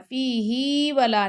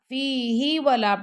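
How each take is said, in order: First: The vowel in 'hi' is drawn out long. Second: The vowel in 'hi' is kept short. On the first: The speaker calls it wrong. "नहीं पढ़ना, ही को लंबा नहीं करना" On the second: The speaker calls it right. "पढ़ना"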